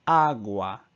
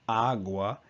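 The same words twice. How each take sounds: First: "agua" slow, with both A's open as in "father"; correct agua, slow. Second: "agua" with a lazy, shifted A sound; first the wrong "agua", as the learner says it. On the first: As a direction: model "agua" slowly, with a clean "ah" on each A. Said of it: "So instead of agua, it's agua". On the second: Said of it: "So instead of agua". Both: Shown as a demonstration.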